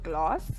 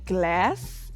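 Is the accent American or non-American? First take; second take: non-American; American. First: It is said in a non-American accent. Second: It is said in an American accent.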